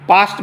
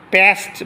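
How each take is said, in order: First: পাস্ট with a long open "aa"; British pronunciation. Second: পেস্ট with a front "pest" vowel; American pronunciation. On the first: Teacher contrasts two accents for students, British pronunciation. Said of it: "পাস্ট বলে British". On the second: Teacher contrasts two accents for students, American pronunciation. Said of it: "পেস্ট বললে America". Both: Shown as a demonstration.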